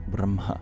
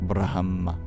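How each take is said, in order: First: The h is breathed with or after the m. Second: The h is breathed before the m. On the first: The speaker calls it right. "it's actually sounded during or after" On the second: The speaker calls it wrong. "it's not just Brahma"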